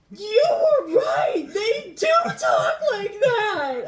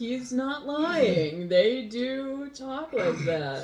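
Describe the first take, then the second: First: High, loud, drawn-out squeal of amazement, laughing; hammed-up surprise. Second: Slow, higher confirmation leaning on DO; stress on DO. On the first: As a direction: exclaim it slowly in a mock-astonished shriek. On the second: Real, not acted. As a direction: stretch out DO to insist it is true. Confirms her friend was right.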